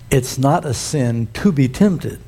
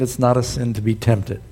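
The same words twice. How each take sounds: First: The sentence is spoken slowly. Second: The sentence is spoken quickly. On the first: The speaker calls it right. "I'm going to say that slower" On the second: The speaker calls it wrong. "I said it too quick"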